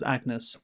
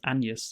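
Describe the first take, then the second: First: The name is said the plain English way. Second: The name is said with a foreign pronunciation. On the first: This is how the reviewers said it. "in our Hamnet review, we pronounced it as Agnes" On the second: This is how the film says it. "in the movie it's pronounced Agnes"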